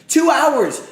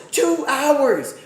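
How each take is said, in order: First: Loud, high cry of disbelief; exasperated yell. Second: High and loud, a little less; exasperated yell again, slightly softer. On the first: Streamer yelling about waiting for his pick. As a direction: yell it at the broadcast. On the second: Streamer repeating his complaint to chat, still annoyed. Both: Real, not acted. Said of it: "I'm annoyed".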